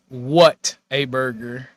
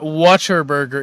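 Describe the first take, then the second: First: The start is said clearly as 'what a'. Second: The start is run together to sound like 'water'. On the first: The speaker calls it right. "It's what a burger" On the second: The speaker calls it wrong. "it's not Watcher Burger"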